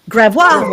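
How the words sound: The name is said with a French pronunciation. This is how French speakers would say it. "if you speak French, it'd be Gravois"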